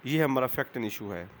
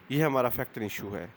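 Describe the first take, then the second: No difference in how they are said.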